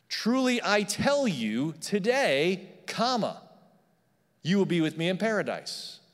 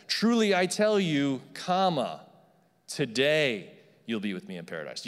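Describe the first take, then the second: First: Comma after today; "today" set off with a pause, then "you will be with me in paradise". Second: Comma before today; pause before today. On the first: Pastor showing the congregation a comma after "today". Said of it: "it could have read this way". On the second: Pastor contrasting the comma before "today" for the church. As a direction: pause after "Truly I tell you", then "today you'll be with me in paradise" run together. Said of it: "Rather than". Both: Shown as a demonstration.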